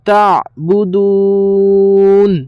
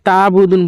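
First: The throat consonant before 'budun' is clearly sounded. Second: The throat consonant before 'budun' is left out. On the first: The speaker calls it right. "তো আপনারা পড়বেন তা তা বুদুন" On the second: The speaker calls it wrong. "এই জায়গায় আমরা অনেকজন ভুল করি, তা বুদুন বলে দিই"

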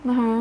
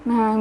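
No difference in how they are said.

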